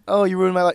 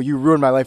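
First: It is said lightly and casually. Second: It is said with deep, serious intensity.

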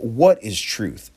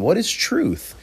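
First: It is asked as a cynical, dismissive question. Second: It is asked as a sincere, curious question. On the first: The asker implies truth cannot be known. "He was saying, "What is truth?" As if truth is unknowable" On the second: The asker really wants to discuss the answer. "Pilate wasn't genuinely asking Jesus, "Well, why don't you, let's have a philosophical conversation"

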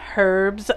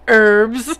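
First: The word begins with an audible H sound. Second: The word begins with no H sound. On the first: This is the British way of saying it. "here in the UK we pronounce the H" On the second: This is the American way of saying it. "in America you call them herbs"

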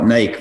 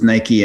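First: It is one syllable, rhyming with bike. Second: It is two syllables, ending in an ee sound. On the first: This is how people in Europe say it. "you folks in Europe call it Nike" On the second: This is how people outside Europe say it. "versus Nike"

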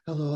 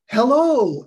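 First: The greeting is said flatly, without enthusiasm. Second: The greeting is said with lively enthusiasm. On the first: The listener wants to end the call. The speaker calls it wrong. "You just hang right up" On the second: The caller seems worth listening to. The speaker calls it right. "and you have enthusiasm"

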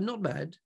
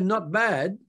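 First: It sounds flat and thoroughly miserable. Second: It sounds only somewhat down and half-hearted. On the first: The person is feeling lousy. "in other words, you're feeling lousy" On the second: The person is feeling semi-lousy. "it's like semi-lousy"

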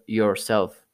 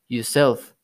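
First: It is said in a standard English accent. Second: It is said in a Guyanese accent.

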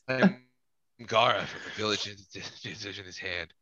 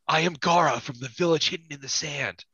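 First: It is said with toned-down, restrained emotion. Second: It is said with strong, exaggerated emotion.

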